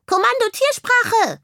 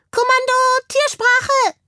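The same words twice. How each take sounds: First: Very high, squeaky insistent reminder; admonishing hamster. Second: Tiny commander calling out very high; high-voiced hamster command. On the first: Hamster reminding the bird of the order, admonishing. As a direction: repeat the order pointedly, as a tiny commander. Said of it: "ermahnte ihn der Hamster". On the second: Hamster commanding animal talk, high-voiced call. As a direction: squeak out a crisp order to the squad. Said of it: "mit einer hellen Stimme". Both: A narrator's reading.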